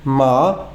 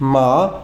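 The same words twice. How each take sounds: First: The pitch dips down and then rises. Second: The pitch dips down and then rises.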